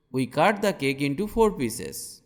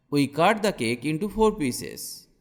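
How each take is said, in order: Both takes have the same delivery.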